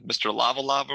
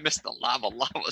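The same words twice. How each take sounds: First: The name is said casually, without respect. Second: The name is said with a respectful tone. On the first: The speaker calls it wrong. "say it with a little bit of respect" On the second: The speaker calls it right. "That's much more respectful"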